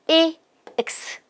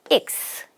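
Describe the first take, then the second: First: The sounds are said slowly and apart. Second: The sounds are run together quickly in one beat.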